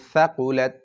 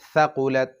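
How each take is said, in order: No difference in how they are said.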